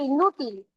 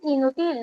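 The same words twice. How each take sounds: First: The stress falls on the middle syllable. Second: The stress falls on the last syllable. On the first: The speaker calls it right. "no dice ... Para que diga inútil, ¿qué faltó? La tilde" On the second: The speaker calls it wrong. "Acá dicen"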